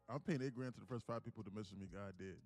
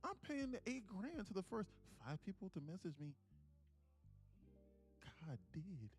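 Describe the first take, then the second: First: It is said in a plain, matter-of-fact tone. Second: It is said in an innocent, sincere tone.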